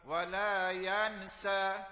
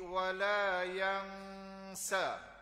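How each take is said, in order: First: The n is pronounced clearly and fully. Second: The n is hidden with a nasal hum. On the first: The speaker calls it wrong. "Tak boleh buat wa la yansa" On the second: The speaker calls it right. "Ikhfa tu"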